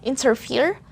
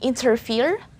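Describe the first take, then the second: Both takes have the same delivery.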